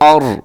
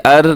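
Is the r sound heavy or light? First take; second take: heavy; light. First: The r is pronounced heavy and full. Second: The r is pronounced light and thin. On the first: The speaker calls it right. "बल्कि और" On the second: The speaker calls it wrong. "अर नहीं"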